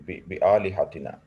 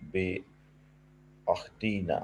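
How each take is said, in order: First: بِآلِهَتِنَا read right, long aa then a clear l and h; quick corrected reread of بِآلِهَتِنَا after a false start. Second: Slow misread of the word as بِأَخْتِنَا, with a kh sound in place of آلِه; stumbling slow misreading of بِأَخْتِنَا. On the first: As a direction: fix it and say بِآلِهَتِنَا with the lam. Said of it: "وہ لام تھا". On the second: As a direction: read بِأَخْتِنَا haltingly, the wrong word. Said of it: "سوری، بِآ". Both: Real, not acted.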